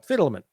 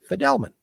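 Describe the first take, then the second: First: The name begins with a sound like 'fiddle'. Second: The name begins with a sound like 'fee-del'. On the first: This is how the wider family says the name. The speaker calls it wrong. "We have been pronouncing the name wrongly" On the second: This is the form the father adopted later. The speaker calls it right. "The right name to pronounce the name is Fidelman"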